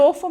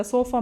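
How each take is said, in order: First: ತೋಫಾ with a "t" sound at the start; imitated mispronunciation. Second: ಸೋಫಾ with a clear "s" at the start; corrected pronunciation. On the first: Mother echoing her son's slip for sofa, ತೋಫಾ with an initial T. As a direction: mimic the child's slip, ತೋಫಾ starting with T instead of S. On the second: Shown as a demonstration. Mother correcting her son's word, ಸೋಫಾ with an initial S. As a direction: model ಸೋಫಾ starting with S, not T. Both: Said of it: "ತೋಫಾ ಮೇಲಲ್ಲ".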